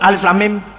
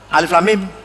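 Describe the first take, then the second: First: Each letter name is said separately. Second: Each letter name is said separately.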